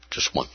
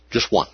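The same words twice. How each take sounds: First: Just one, almost breathed; fading repeat; barely audible echo. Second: Said in the usual way. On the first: Acted. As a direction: drop nearly to nothing. Echo dropped very soft.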